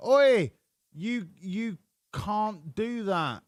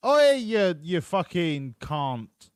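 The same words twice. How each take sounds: First: Mock Australian telling someone off, shouted Oi and slow rest. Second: Imitating an Aussie yelling at a passing car, loud and high on Oi; mock Australian driver, shouting Oi then dragging out "you fucking can't" slowly. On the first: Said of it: "what he actually said was". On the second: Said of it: "in the Australian accent".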